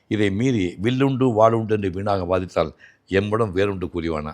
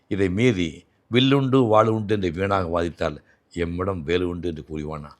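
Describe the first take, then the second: First: It is said arrogantly, with a proud tone. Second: It is said modestly, without a proud tone.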